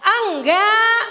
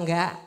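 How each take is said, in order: First: High, very loud drawn-out ENGGAK; big exaggerated teaching shout; demonstrating loud response. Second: Said in the usual way. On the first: Shown as a demonstration. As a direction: belt out "enggak" for the crowd to copy. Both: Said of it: "Ayo saya ajarin ngomong".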